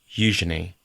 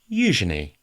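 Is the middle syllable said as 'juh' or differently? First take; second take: juh; juh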